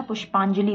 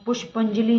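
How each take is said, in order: First: पुष्पांजलि with long "paan"; correct pronunciation. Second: पुष्पांजलि with short "pan"; wrong pronunciation. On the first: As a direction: say पुष्पांजलि as "push-paan-jali". (पुष्पांजलि में "पां" लंबा बोलें) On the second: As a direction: say पुष्पांजलि as "push-pan-jali". (पुष्पांजलि में "पं" छोटा बोलें) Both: Shown as a demonstration. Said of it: "पुष्पांजलि होता है".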